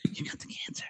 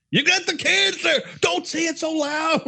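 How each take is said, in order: First: Barely audible repeated whisper; whispered bad news. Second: High, strained mock shout; exasperated blurting. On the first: Imitated doctor repeats diagnosis to patient, tiny whisper. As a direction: whisper it far softer, keeping it secret. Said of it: "they whisper bad things". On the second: Imitated doctor and patient over test results, high blurted outburst. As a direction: give up whispering and squawk it out. Whisper fails, diagnosis said aloud.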